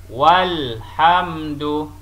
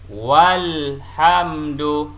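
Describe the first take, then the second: The two takes are said the same way.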